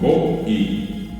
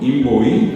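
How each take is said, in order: First: A glottal stop separates the o from the i. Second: The o and i run together without a break. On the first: It means to cut. "En el primer caso es con un puso" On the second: It means to undress. "así solo, es sin el puso, significa desnudar"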